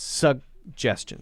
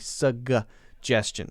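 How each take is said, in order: First: The first G is held, not released. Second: The first G is fully released. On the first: The speaker calls it right. "You don't let the first G go, though" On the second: The speaker calls it wrong. "You don't say suggestion"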